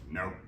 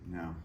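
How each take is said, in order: First: The word is said with strong force. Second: The word is said plainly, without force.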